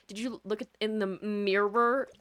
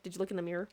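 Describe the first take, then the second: First: "mirror" drawn out slowly in two full syllables; mock-careful "mirror", every sound pronounced; over-enunciated. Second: Quick, offhand, "mirror" shrunk to "meer"; casual Midwestern. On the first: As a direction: exaggerate both syllables of "mirror", louder and slow. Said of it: "I'm not gonna be like". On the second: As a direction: toss it off with "mirror" as one syllable. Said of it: "I just say, like". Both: Shown as a demonstration.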